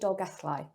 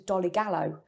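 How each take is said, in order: First: The name is said with Welsh sounds. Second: The name is said with anglicized sounds. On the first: The locals say it this way. The speaker calls it right. "It's actually Dolgellau" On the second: A visitor unfamiliar with the place said it. The speaker calls it wrong. "people coming on the bus"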